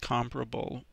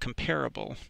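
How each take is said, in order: First: The stress is on the first syllable. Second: The stress is on the second syllable. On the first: The speaker calls it right. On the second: The speaker calls it wrong.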